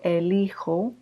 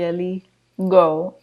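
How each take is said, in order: First: The middle consonant is a breathy H-like sound. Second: The middle consonant is a hard G sound. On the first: The speaker calls it right. "So we have to say yo elijo" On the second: The speaker calls it wrong. "if you had a G here, it would be eligo"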